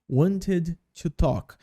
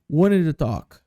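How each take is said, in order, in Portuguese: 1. O t em 'wanted' é claramente pronunciado. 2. O t em 'wanted' é omitido, falado rápido.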